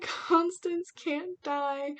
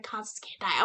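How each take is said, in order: First: Slow, high, drawn-out wail; emotional wail. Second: Said in the usual way. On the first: Retold or imitated. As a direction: plead it as if your heart is breaking. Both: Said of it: "I was getting emotional".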